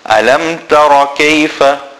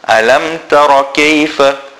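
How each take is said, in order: Both takes have the same delivery.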